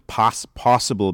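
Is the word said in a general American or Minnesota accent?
general American. It has a plain general American vowel. "a word like possible"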